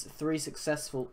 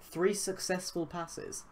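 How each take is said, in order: First: Said in the usual way. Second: Puzzled double take, voice lifting; wait, did I read that right?; surprised. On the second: Real, not acted. Double-takes at the stat.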